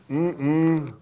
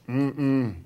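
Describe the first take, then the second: Both takes have the same delivery.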